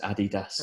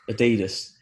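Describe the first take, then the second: First: Adidas is said the English way. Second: Adidas is said the American way.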